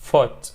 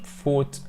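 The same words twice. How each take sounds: First: The vowel is short and clipped. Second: The vowel is long and drawn out. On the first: The speaker calls it right. "بنخطفها كده ... لا foot foot right" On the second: The speaker calls it wrong. "مش foot"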